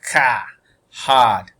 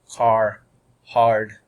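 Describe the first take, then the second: First: The R after the vowel is silent. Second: The R after the vowel is pronounced.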